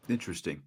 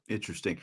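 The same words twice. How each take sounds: The two takes are said the same way.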